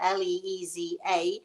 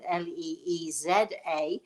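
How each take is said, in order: First: The letters are spelled in an American accent. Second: The letters are spelled in an English accent.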